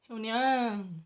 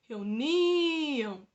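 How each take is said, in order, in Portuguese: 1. A tônica está na última sílaba. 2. A tônica está na penúltima sílaba. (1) "Não" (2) "esse ni é o som mais forte"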